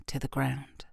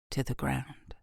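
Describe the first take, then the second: No difference in how they are said.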